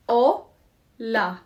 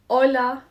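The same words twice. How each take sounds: First: "Hola" broken into two beats, O, pause, la; clapped syllables. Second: Said in the usual way. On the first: Shown as a demonstration. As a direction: split "Hola" syllable by syllable, louder on the O. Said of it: "Let's clap it". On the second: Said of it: "while we say it".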